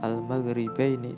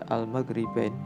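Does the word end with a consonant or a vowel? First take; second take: vowel; consonant. First: The word ends with an open vowel. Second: The word ends with a consonant. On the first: The reading continues past this word. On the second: The reader stops on this word.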